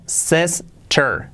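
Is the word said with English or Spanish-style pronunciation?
English. It is said with English-style sounds. The speaker calls it right.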